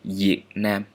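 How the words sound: The first word begins with a y sound. This is the southern dialect pronunciation. "if I'm in the south, I would pronounce this one like"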